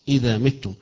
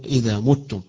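First: The verb's first vowel is an i sound. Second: The verb's first vowel is a u sound. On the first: This is one canonical reading of the verse. "متم بالكسر" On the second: This is the reading of the majority of reciters. "وقراءة الجمهور وغير هؤلاء يقرؤون اذا متم"

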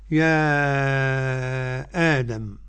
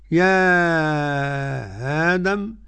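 First: A full glottal stop and a long drawn vowel. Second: A softened glottal stop and a long drawn vowel. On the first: "لنا التحقيق على المد ست حركات" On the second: "التسهيل مع المد"

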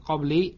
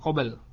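First: It is said qabli, ending in -i. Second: It is said qabl, ending in a consonant. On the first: "bukan qabli" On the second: "bukan qabl"

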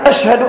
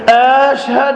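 First: The opening vowel is said short. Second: The opening vowel is drawn out long. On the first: It is a statement of testimony. The speaker calls it right. "هي الأصل فيها" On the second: It becomes a question. The speaker calls it wrong. "مد الهمزة من أشهد"

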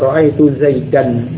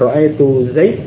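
First: The name ends on an n sound. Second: The name ends on a bare d sound. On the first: "yang asalnya ra'aitu Zaidan" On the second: "Bukan ra'aitu Zaid"

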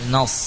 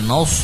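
First: The vowel is said without rounded lips. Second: The vowel is said with rounded, forward lips. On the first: The speaker calls it right. "Usahakan bibir tidak maju" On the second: The speaker calls it wrong. "Bukan nas"

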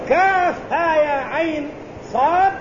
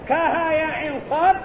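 First: The first letter is said in full as Kaf. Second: The first letter is clipped and merged as Ka. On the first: The speaker calls it right. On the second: The speaker calls it wrong.

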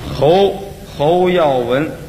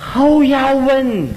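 First: The name is said in a plain Chinese accent. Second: The name is said with a foreign-sounding accent.

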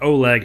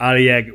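First: The name is said the English way. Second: The name is said the Russian way.

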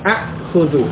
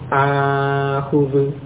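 First: A glottal stop follows the short first vowel. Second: The first vowel is long with no glottal stop. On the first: This is the underlying original form. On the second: This is the actual softened form used. "hamzah yang kedua dilunakkan menjadi akhudhu"

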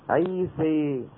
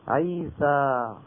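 First: The final vowel is tilted fully toward e. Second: The final vowel is an open a sound. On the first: This is the major vowel tilting of some tribes. "بنو تميم وغيرهم كمان من بعض القبائل الأخرى يقولون" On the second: This is the open pronunciation without vowel tilting. "أما قريش فكانت من أهل الفتح"

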